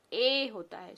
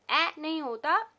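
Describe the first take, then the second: First: ए said as the long a, its letter name; the right long a; long a sound. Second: Short a as in can, higher; the short a, marked as the wrong one; short a sound. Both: Shown as a demonstration.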